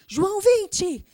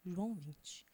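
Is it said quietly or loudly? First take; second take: loudly; quietly. First: It is said loudly and boldly. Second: It is said quietly and timidly.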